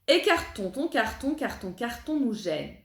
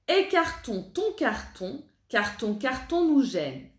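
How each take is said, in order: First: The phrase is spoken at moderate speed. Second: The phrase is spoken slowly. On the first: "un petit peu plus vite" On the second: "on la répète lentement"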